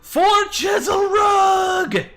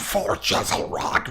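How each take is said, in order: First: It is said in a plain, normal speaking voice. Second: It is said in a growling monster voice.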